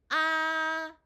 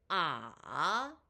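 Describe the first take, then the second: First: The pitch stays high and level. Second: The pitch dips low, then rises.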